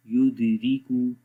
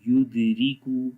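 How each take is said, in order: Both takes have the same delivery.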